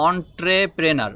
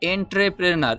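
First: অন্ট্রেপ্রেনার begun with an open "on"; correct pronunciation. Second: এন্ট্রেপ্রেনার begun with "en" as the spelling suggests; common wrong pronunciation. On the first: Teacher correcting learners' mistake: অন্ট্রেপ্রেনার begun with "on". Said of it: "এটার উচ্চারণ হবে". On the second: Teacher showing learners the wrong sound: এন্ট্রেপ্রেনার with "en". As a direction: say এন্ট্রেপ্রেনার the mistaken way, "en" first. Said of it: "এন্ট্রেপ্রেনার বললে হবে না". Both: Shown as a demonstration.

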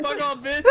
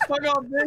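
First: Said in the usual way. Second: Laughing. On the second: Acted. Laughing insult.

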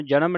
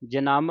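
First: ਜਨਮ as everyday "janam", all vowels short. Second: ਜਨਮ as "janamm", second syllable drawn into a nasal; nasal, lengthened ending. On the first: Teacher warning against the everyday reading, ਜਨਮ with short vowels. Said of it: "ਜਨਮ ਨਹੀਂ ਕਹਿ ਦੇਣਾ". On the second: Teacher modelling the tippi reading, ਜਨਮ with lengthened nasal ending. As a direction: lean on the end of ਜਨਮ, "ja-naamm". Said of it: "ਇੱਥੇ ਲੱਗੀ ਟਿੱਪੀ". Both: Shown as a demonstration.

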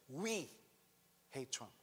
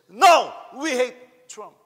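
First: Said in the usual way. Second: High, loud, slow yell; screaming. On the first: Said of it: "Look at what she said". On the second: Retold or imitated. Filipina shouting down the Trump-praising tourists, screaming. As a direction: belt it out slow and defiant. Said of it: "is screaming and say".

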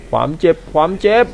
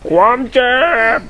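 First: Said in the usual way. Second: Higher mock monster voice saying ความเจ็บ; put-on game voice. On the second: Gamer echoes the boss saying ความเจ็บ, higher mock voice. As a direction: echo the game's pained line, pitched up. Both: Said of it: "ทำไมกูต้องทำเสียงแบบนี้ด้วย".

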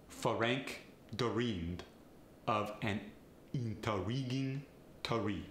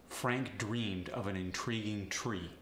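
First: Vowels slipped in, Feh-rank deh-reamed, teh-ree; Farsi accent. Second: Said in the usual way. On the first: Shown as a demonstration. Coach demonstrating a Farsi accent, a vowel before each R. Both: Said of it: "Inserting vowels is especially fun".

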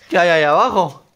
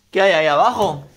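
Both takes have the same delivery.

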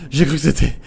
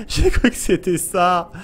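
First: Said in the usual way. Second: Slow laugh through the words; shaky laughing repeat; laughing relief. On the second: Real, not acted. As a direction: laugh off the scare.

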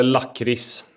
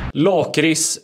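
First: "lakrits" with a short first A; variant pronunciation. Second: "Lakrits" with a long, drawn first A; variant pronunciation. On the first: Host offers rival pronunciations, short-A "lakrits". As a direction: say "lakrits" as lack-riss, slowly. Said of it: "Det heter lakrits". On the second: Host offers rival pronunciations, long-A "Lakrits". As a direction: say "Lakrits" as laak-ris, slowly. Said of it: "Lakrits eller lakrits?". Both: Shown as a demonstration.

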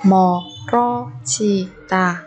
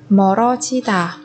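First: 멀어지다 slowly, each syllable apart. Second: Said in the usual way. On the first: Shown as a demonstration. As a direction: break 멀어지다 into drawn-out syllables. Teacher models word syllable by syllable.

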